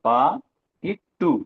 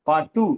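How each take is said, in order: First: The word is broken into separate parts. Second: The word is said smoothly as one unit. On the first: "தனியா சொல்லும்போது எப்படி சொல்றோம் பாருங்க" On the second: "சேர்த்து சொல்லும்போது பாட்டு தான்"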